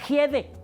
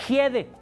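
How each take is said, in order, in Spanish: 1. El primer sonido es una j fuerte. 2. El primer sonido es una j fuerte.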